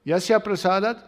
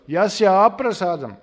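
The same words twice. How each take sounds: First: Said in the usual way. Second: "aprasadam" loud, with a long opening A; added long A. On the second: Shown as a demonstration. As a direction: stretch and stress the first A of "aprasadam". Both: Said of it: "A is added".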